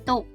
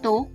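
First: The syllable is said with a low tone. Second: The syllable is said with a rising tone. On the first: "ได้แก่เสียงเอก" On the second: "และเสียงจัตวา"

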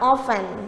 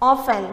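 First: The t sound is silent. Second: The same.

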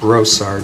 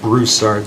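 First: The first syllable has no 'oo' sound. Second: The first syllable has an 'oo' sound. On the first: The speaker calls it right. "My last name is pronounced Broussard" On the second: The speaker calls it wrong. "not Broussard. There is no U in there"

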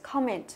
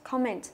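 Both takes have the same delivery.

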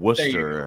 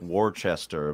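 First: The name is said the local way. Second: The name is said as it is spelled. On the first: This is the real name of the town. The speaker calls it right. "that's not what it is" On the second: This is how the name looks in writing. The speaker calls it wrong. "It looks like Worcester"

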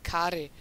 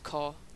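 First: The first vowel is not an O sound. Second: The first vowel is an O sound. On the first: The speaker calls it wrong. "one of my friends called him Kaare" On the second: The speaker calls it right. "his real name is Kaare. It's a Danish name, and the double A makes this O sound"

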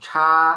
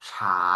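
First: The syllable is said with the first tone. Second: The syllable is said with the second tone. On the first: "เสียงหนึ่งชา" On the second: "เสียงสองฉา"

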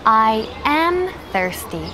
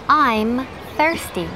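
First: 'I am' is said as two full words. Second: 'I am' is contracted into one syllable.

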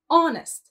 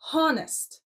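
First: The word starts with a vowel sound and no H sound. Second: The word starts with a clear H sound. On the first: The speaker calls it right. "we don't pronounce the H sound. It's honest" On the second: The speaker calls it wrong. "not honest"

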